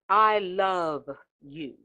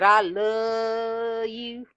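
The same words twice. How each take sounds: First: The V at the end of 'love' is clearly heard. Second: The V at the end of 'love' is not heard. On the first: The speaker calls it right. "You can hear the V E in love" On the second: The speaker calls it wrong. "Ain't no I love you. Where'd that come from?"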